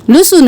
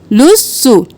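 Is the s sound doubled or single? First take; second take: single; doubled. First: The s sound is said once, short. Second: The s sound is held doubled. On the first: The speaker calls it wrong. "लुसु नहीं करना" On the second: The speaker calls it right. "लुस और सु दो बार सीन अदा होगा"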